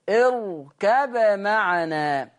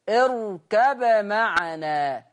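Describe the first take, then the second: The two takes are said the same way.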